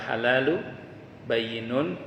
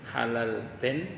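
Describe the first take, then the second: First: The second word is said as three full syllables. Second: The second word is shrunk to one syllable. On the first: The speaker calls it right. "Itu jangan dibaca salah" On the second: The speaker calls it wrong. "ada yang salah baca itu"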